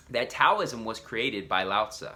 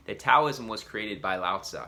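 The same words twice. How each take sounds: The two takes are said the same way.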